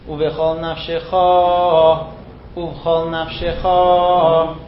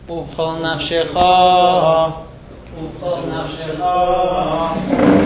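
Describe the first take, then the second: The two takes are said the same way.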